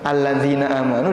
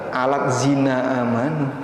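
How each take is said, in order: First: The middle is a single soft 'dh' sound. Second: The middle splits into a 't' then 'z'. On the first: The speaker calls it right. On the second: The speaker calls it wrong.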